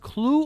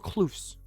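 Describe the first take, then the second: First: The word ends without an S sound. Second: The word ends with an audible S sound. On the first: The speaker calls it right. "without S" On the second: The speaker calls it wrong. "With S"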